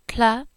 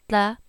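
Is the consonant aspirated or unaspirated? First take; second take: aspirated; unaspirated. First: The consonant is said with a puff of breath. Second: The consonant is said without aspiration.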